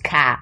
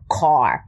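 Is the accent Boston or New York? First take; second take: Boston; New York. First: It is said with a Boston-sounding vowel. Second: It is said with a long New York vowel.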